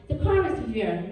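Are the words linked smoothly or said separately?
linked. The words are linked smoothly together.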